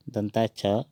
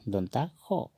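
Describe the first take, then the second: First: "दंता छ" with a final chha; Hindi pronunciation. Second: "दंता खो" with kho at the end; Assamese pronunciation. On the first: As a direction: say "दंता छ" the Hindi way, open last vowel. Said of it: "इसको हम". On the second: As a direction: say "दंता खो" higher, rounded o. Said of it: "Asamiya में कहेंगे". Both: Shown as a demonstration.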